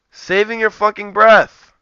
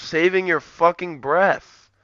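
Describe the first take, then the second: First: Saving your fucking breath, slowed and hammered, breath falling; slow emphatic repeat. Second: Said in the usual way. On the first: Shown as a demonstration.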